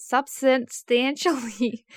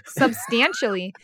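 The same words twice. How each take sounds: First: "substantially" stretched and muddled with an extra syllable; "substantially" garbled as "substanstantially", loud; tongue-tied stumble. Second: "substantially" said cleanly as sub-STAN-shally; loud, careful retry of "substantially"; corrected pronunciation. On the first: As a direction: trip slowly over "substantially", adding an n sound. Flubbed word in blooper take. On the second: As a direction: get through "substantially" in clear syllables, stress on STAN. Corrects the flubbed word. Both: Real, not acted.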